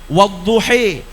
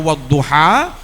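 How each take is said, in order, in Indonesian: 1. Vokal terakhirnya condong ke bunyi E. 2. Vokal terakhirnya adalah bunyi A terbuka. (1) "mereka punyanya E" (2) "Ada yang memiliki huruf vokalan A, maka dibaca A"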